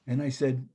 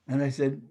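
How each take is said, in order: Both takes have the same delivery.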